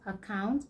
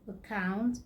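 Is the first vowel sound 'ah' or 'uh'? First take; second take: ah; uh. First: The first vowel is an open 'ah' sound. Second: The first vowel is a short 'uh' sound. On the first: The speaker calls it wrong. "I hear a lot of people say away, about, account" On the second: The speaker calls it right. "It's not ah, but uh"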